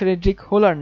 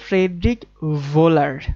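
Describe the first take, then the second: First: The surname starts with a plain h sound. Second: The surname starts with a sound between h and v. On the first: The speaker calls it wrong. "ইনি ফ্রেডরিক হোলার না" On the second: The speaker calls it right. "হ এবং ভ এর মাঝখানে কিছু একটা উচ্চারণ করতে হবে"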